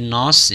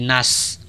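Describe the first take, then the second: First: The vowel is heavy and the s is heavy. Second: The vowel is thin and the s is thin. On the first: "bukan na-nya ditebalkan" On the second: "bukan shadnya ditipiskan"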